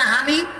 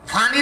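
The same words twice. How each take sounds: First: "হানি" with h at the start instead of p or f; Noakhali h sound. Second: Said in the usual way. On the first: Shown as a demonstration. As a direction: say "হানি" opening on a breath h, Noakhali style. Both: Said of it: "হ উচ্চারণ করে".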